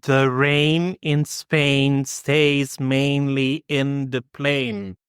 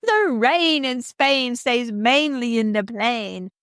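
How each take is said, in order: First: Slow, carefully drilled "The rain in Spain stays mainly in the plain"; elocution drill. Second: Slow, higher, put-on posh "The rain in Spain stays mainly in the plain"; mock proper accent. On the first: Colleague drilling [name] like a speech coach, slow and careful. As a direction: says "rain", "Spain", "plain" slowly with long clear vowels. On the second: [name] repeats the elocution line in a put-on proper accent. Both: Shown as a demonstration. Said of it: "repeat after me".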